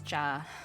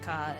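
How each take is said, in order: First: The syllable begins with a ch sound. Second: The syllable begins with a hard k sound. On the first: The speaker calls it right. "it's cha" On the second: The speaker calls it wrong. "the pronunciation isn't ka"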